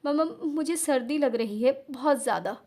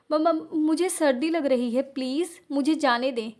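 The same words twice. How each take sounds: First: Stammering through mild hiccups; teary, halting complaint of cold; hiccuping sobs. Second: Teeth-chattering plea, slowed down; shivering stutter. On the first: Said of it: "हिचकियाँ लेते हुए". (हिचकियाँ लेती रुआँसी आवाज़) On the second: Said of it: "कपकपाते नीले होठों के साथ". (ठंड से कांपती, हकलाती आवाज़) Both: Acted.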